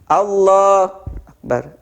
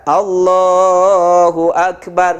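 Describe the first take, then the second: First: The first word is loud, the second soft. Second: Both words are said at even loudness. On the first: The speaker calls it wrong. "Allahnya keras tapi akbarnya pelan, jangan" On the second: The speaker calls it right. "harus senada"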